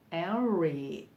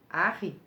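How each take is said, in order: First: The name is said the English way, growled R. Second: The name is said with a Brazilian Portuguese pronunciation. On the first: "a forma inglesa Henry, com R rosnado" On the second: "abrasileirando a pronúncia"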